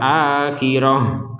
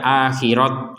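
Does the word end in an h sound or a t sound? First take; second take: h sound; t sound. First: The word ends with a soft h sound. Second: The word ends with a t sound. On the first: The reader stops at this word. The speaker calls it right. "Kenapa dibaca sebagai huruf H?" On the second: The reader goes on without stopping. The speaker calls it wrong. "Kenapa tidak dibaca akhirat misalkan?"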